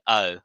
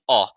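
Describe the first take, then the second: First: The O sounds like an American vowel. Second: The O sounds like a Japanese vowel. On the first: "when you do your American pronunciation, you're you're saying" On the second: "When you do the Japanese pronunciation, you're saying"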